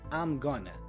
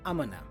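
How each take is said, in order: First: Gonna is lightly reduced with clear syllables. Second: Gonna is heavily reduced and almost swallowed. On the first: "A typical reduction for going to is gonna" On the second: "we actually hear it even more reduced"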